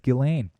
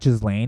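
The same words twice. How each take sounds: First: The S sound in the name is silent. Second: The S sound in the name is pronounced. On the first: The speaker calls it right. "it's Ghislaine. apparently you don't pronounce the S" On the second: The speaker calls it wrong. "Just not Ghislaine"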